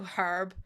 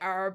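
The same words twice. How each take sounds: First: The word starts with a clear, hard H sound. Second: The word starts with a vowel, no H sound. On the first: This is how it is said over here. "I go herb. I put a proper hard H on it" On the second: This is how Americans say it. "you guys say herb"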